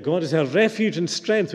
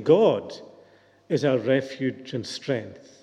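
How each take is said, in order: First: "refuge and strength" carries the emphasis; stress on second part. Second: "God" set apart, then a pause; stress on GOD. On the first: Preacher quoting the promise we latch on to, stress on "refuge and strength". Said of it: "put the emphasis on the second part". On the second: Preacher moving the emphasis to the beginning, stress on "God". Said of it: "emphasis should be at the beginning". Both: Shown as a demonstration.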